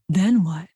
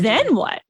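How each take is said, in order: First: It sounds worried and anxious. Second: It sounds curious and eager.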